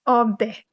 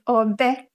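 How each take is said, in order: First: The pitch steps down from the first syllable. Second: The pitch steps up from the first syllable.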